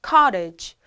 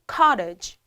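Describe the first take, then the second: No difference in how they are said.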